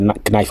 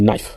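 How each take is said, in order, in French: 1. Le k au début se prononce. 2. Le k au début est muet. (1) "on ne prononce pas knife" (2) "on dit knife"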